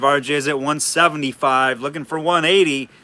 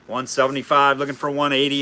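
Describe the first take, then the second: First: It is said in his ordinary speaking voice. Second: It is said in a put-on auctioneer voice.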